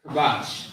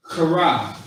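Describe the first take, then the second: First: Kabash with a light k, no throat force; relaxed, unforced "kabash". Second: Kara with a forceful, throat-scraped first consonant; guttural, forced "kara", louder on the first syllable; forced throaty sound. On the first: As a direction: say "kabash" easily, no rasp on the k. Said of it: "not really saying it with too much force". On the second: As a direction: push the start of "kara" out through your throat. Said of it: "you're saying it with force". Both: Shown as a demonstration.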